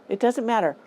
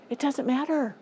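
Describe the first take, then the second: First: "doesnt" punched, then falling; stress on doesn't. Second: "It doesn't matter" pitched high, matter falling hard; stress on matter. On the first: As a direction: hit "doesnt" firmly, let "matter" fall. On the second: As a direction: lift the whole line high and drop it on "matter". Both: Shown as a demonstration. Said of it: "repeated for emphasis".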